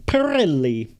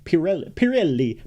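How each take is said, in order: First: Pirelli with a long rolled Italian R; Italian accent on Pirelli. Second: Said in the usual way. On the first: Shown as a demonstration. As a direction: roll the R in Pirelli like a stage Italian. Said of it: "how do I do an Italian accent?". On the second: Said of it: "they had that with".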